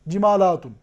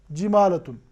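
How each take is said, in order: First: जिमालातुन with a long aa after the l; plural reading. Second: जिमालतुन with a short a after the l; short vowel in जिमालतुन, the singular form; singular reading. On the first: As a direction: stretch the aa in जिमालातुन, the plural form. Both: Shown as a demonstration. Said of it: "दोनों अल्फाज के पढ़ने का पूरा पूरा एहतिमाल".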